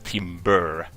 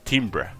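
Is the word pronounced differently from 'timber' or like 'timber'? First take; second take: like timber; differently. First: The word sounds exactly like timber. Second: The word sounds different from timber. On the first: The speaker calls it wrong. "you don't pronounce it as timber" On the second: The speaker calls it right. "It's timbre"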